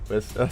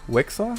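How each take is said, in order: First: The middle sounds are s then k. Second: The middle sounds are k then s. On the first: The speaker calls it right. "Wesker, that's his name" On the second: The speaker calls it wrong. "I said his name with the K and S flipped around"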